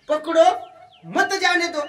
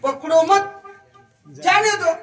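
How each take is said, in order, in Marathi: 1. 'pakdo' नंतर लगेच विराम आहे. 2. 'mat' नंतर लगेच विराम आहे. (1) "पकडो क्वामा मत जाने दो" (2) "पकडो पसला क्वामा कट केला आणि मत पोशी टाकलं"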